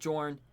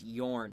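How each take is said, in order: First: The name begins with a J sound. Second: The name begins with a Y sound. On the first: The speaker calls it wrong. "Anybody who has ever called him Jorn is wrong" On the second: The speaker calls it right. "It's Yorn, because he's Norse"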